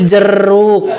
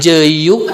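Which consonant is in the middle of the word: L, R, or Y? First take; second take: R; Y. First: The middle consonant is an r sound. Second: The middle consonant is a y sound. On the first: The mother is saying it. The speaker calls it right. "cek ibu-ibu nanti jeruk" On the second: A small child is saying it. The speaker calls it wrong. "cek budak nanti jeyuk"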